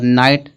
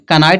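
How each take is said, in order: First: The word starts with an n sound. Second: The word starts with a k sound. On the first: The speaker calls it right. "के क्या होगा, silent होगा" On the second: The speaker calls it wrong. "कनाइट इसको नहीं पढ़ेंगे"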